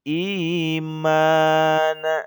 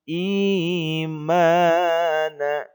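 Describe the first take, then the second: Both takes have the same delivery.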